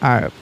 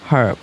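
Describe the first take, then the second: First: The word begins with a vowel sound, American style. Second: The word begins with an h sound, British style. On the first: "এটা হচ্ছে ইউএসের উচ্চারণ অনুযায়ী অ্যান আর্ব হবে" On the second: "আমরা যেহেতু British English follow করি ... আমরা বলবো এ হার্ব"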